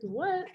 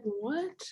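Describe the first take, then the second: First: Squeaky much higher What, rising in disbelief; shocked what. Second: Soft puzzled what, a bit higher; mock a teammate's quiet puzzled question; confused what. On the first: Retold or imitated. Teammate hearing about kangaroo rides, squeaky astonished what. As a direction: mimic her jaw-dropping disbelief. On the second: Teammate asked about kangaroos, a soft puzzled what. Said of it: "She's like".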